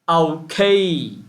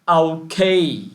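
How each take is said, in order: No difference in how they are said.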